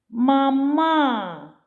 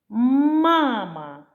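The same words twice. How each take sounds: First: The stress is on the second syllable. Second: The stress is on the first syllable. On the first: The speaker calls it wrong. "щоб другий склад виявився з наголосом" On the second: The speaker calls it right. "У слові «мама» перший склад вимовляється сильніше"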